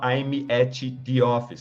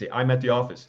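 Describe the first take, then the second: First: Each word is said separately. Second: The words run together in one linked stream. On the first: The speaker calls it wrong. "você não fala" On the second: The speaker calls it right. "você emenda"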